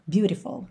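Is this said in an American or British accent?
American. It is said in an American accent.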